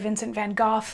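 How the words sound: The name is said with an English pronunciation. "people from England say"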